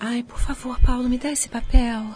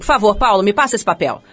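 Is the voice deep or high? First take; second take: high; deep. First: It is said in a higher, softer voice. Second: It is said in a deep, curt voice.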